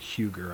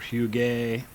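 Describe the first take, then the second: First: The name is said in a non-French way. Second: The name is said in a French way. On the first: The speaker calls it wrong. "It definitely wasn't Huger" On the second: The speaker calls it right. "I think it was kind of the French pronunciation"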